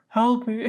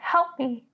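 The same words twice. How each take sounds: First: It is said in a deeper voice. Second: It is said in a higher, girlish voice.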